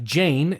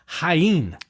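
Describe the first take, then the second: First: It sounds like the English name Jane. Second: It does not sound like the English Jane. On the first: The speaker calls it wrong. "which looks like Jane" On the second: The speaker calls it right. "but it's Jaén"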